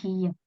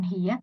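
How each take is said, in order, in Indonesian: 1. Kata ini diakhiri dengan bunyi t. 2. Kata ini diakhiri dengan bunyi h. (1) "tapi hiyet" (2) "bukan hiyeh"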